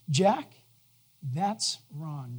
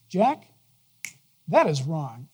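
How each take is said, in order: First: It is said in a warm, gentle tone. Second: It is said in a stern, harsh tone. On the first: The correction is made kindly. "the way He says it is" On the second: The speaker is being scolded severely. "He'll be busting me"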